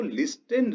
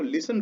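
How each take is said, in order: First: लिस्टेंड with the T fully pronounced; T sounded in लिस्टेंड. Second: लिसन with no T sound; silent T in लिसन. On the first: Teacher shows pupils the misreading, लिस्टेंड with a sounded T. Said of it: "इसको लिस्टेंड नहीं पढ़ेंगे". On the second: Teacher shows pupils the reading लिसन, T silent. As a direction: drop the T, say लिसन with S straight into N. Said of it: "इसको लिसन पढ़ेंगे". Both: Shown as a demonstration.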